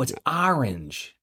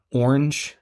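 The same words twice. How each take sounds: First: Slow mock correction, leaning on "orange"; family's pronunciation of orange. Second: "orange" with a rounded OR start; own pronunciation of orange. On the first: Relatives from Providence correcting his word, slow imitated correction of "orange". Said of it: "They're, they're like". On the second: Shown as a demonstration. Man showing a word his family hears as Southern, in his own way. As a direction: say "orange" their own way, first vowel as OR. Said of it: "couple of words I say".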